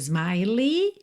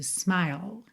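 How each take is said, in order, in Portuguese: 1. A palavra termina com a vogal 'ee' acrescentada. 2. A palavra termina no L, sem vogal. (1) "nem smiley" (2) "Aqui é o sorriso, smile"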